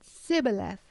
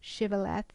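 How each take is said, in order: First: The word begins with an s sound. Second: The word begins with an sh sound. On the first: "They actually pronounced it Sibboleth" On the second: "the word Shibboleth"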